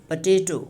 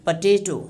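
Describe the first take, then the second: Both takes have the same delivery.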